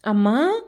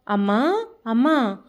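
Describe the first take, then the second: First: A touch louder call through the room; anxious louder call of amma. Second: Said in the usual way. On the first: A narrator's reading. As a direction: call out for mother, a bit louder. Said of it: "ఈసారి కాస్త గట్టిగా పిలిచాడు".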